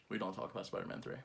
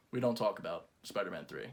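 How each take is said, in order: First: Even softer hushed warning; whisper-quiet, faster, like a secret; barely audible. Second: Low, hushed warning. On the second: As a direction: drop to a solemn near-murmur. Grave hush, quoting line. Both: Acted.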